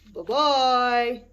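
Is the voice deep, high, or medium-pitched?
deep. It is said in a big, gruff voice.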